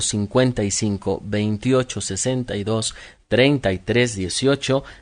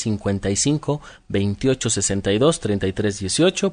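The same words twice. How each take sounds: First: The numbers are said slowly. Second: The numbers are said fast.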